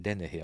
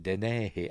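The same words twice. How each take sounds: First: Said in the usual way. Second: Dennehy with the stress moved to the middle, "den-NAY-hee"; alternative pronunciation. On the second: Shown as a demonstration. Host unsure of the actor's surname, alternative pronunciation. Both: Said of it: "is that how you pronounce it".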